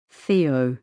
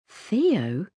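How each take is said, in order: First: Lower-pitched, subdued answer. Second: THEO with a questioning rise. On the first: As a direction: drop the name low. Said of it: "he said in a low voice". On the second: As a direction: echo THEO as a puzzled question. Mother queries the name just given. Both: A narrator's reading.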